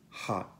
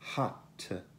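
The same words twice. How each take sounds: First: The final t is a glottal stop. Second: The final t is clearly released. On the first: The speaker calls it right. "colpo di glottire" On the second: The speaker calls it wrong. "Non è hot"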